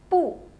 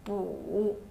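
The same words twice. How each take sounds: First: The pitch falls sharply from high. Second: The pitch dips low, then rises.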